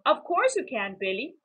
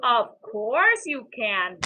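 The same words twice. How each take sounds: First: Indulgent dad. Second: Indulgent. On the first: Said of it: "agreed his dad". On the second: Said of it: "Billy agrees". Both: A narrator's reading.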